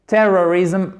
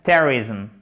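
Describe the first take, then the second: First: "terrorism" without first-syllable stress, middle O fully sounded; lopsided pronunciation. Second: "Terrorism" stressed on TER, then quickly reduced to "rizm"; first-syllable stress. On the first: Teacher demonstrating the awkward version, unreduced "terrorism". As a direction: say "terrorism" as a wobbly ter-ror-ism. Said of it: "c'est un peu bancal". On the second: Teacher showing the fix, "Terrorism" with stress first. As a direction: punch TER in "Terrorism", barely sound the middle. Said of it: "si vous mettez l'accent tonique en plus". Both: Shown as a demonstration.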